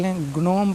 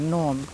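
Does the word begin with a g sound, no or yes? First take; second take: yes; no. First: The word starts with a hard g sound. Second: The word starts with an n sound. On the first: The speaker calls it wrong. "बहुत से बच्चे ग्नोम या ग्नोमे पढ़ते हैं" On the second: The speaker calls it right. "इसको नोम पढ़ना है"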